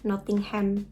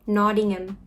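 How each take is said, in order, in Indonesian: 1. Ini diucapkan dengan cara yang familiar, sesuai ejaannya. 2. Ini diucapkan dengan cara lokal Inggris. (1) "biasanya kan kalau kita taunya Nottingham" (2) "Yang benar"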